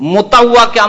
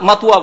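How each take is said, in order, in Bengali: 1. এটি পূর্ণ আরবি রূপে বলা হচ্ছে, mutawa। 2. এটি সংক্ষিপ্ত স্থানীয় রূপে বলা হচ্ছে, matua।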